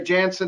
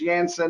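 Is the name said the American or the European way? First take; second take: American; European. First: The name is said the American way. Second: The name is said the European way. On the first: "we say Janssen in the States" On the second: "Janssen is the correct pronunciation, I'm told, from those uh, uh, over the pond"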